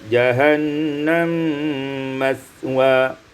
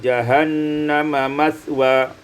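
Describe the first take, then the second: First: The two m sounds merge into one. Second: A vowel separates the two m sounds.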